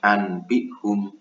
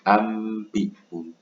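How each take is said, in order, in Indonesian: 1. Ada bunyi n sebelum b. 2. Ada bunyi m sebelum b. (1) "bukan anbihum" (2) "tapi ambihum"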